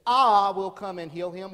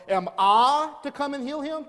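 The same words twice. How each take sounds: First: "I" punched, louder statement; emphatic I. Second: "I" stressed, higher and louder, rising question; emphatic I question. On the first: Pastor showing the congregation Jesus' bold offer, "I" stressed. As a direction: hit the "I" hard as a bold promise. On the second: Pastor showing the congregation Jesus' astonished question, "I" stressed. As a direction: lean on "I" in disbelief. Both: Shown as a demonstration. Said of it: "this emphatic I".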